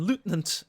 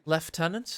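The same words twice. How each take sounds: First: It is said in a German accent. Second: It is said in a British accent.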